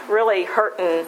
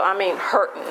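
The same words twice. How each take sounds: First: Said in the usual way. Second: Hurting leaned on, falling at the end; stress on hurting. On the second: Real, not acted. Restating to the group how badly she was hurting, stress on hurting. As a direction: dwell on the word hurting.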